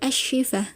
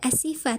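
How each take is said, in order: First: The middle consonant is a sh sound. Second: The middle consonant is a plain s sound. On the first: The speaker calls it right. "tapi Ashifa" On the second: The speaker calls it wrong. "Tidak Asifa"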